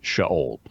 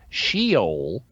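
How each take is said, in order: First: The word is said with a Hebrew pronunciation. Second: The word is said with an anglicized pronunciation. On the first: The speaker calls it right. "In Hebrew, it's Sheol" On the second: The speaker calls it wrong. "you'll hear some people mispronounce it as Sheol"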